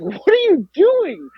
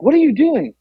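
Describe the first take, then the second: First: High, slow, drawn-out mock disbelief; astonished question, acted out slowly; bewildered dad, imitated. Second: High-pitched mock demand; exasperated repeated question, acted out; insistent dad, imitated. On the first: Dad waking her, retold. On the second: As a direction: imitate a baffled dad pressing for an answer.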